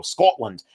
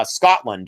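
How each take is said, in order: First: Lower-pitched, amateur Scottish accent on Scotland; attempted Scottish accent. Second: Said in the usual way. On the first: Shown as a demonstration. Teacher playfully naming a colleague's homeland in an attempted Scottish accent. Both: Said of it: "I don't do the best Scottish accent".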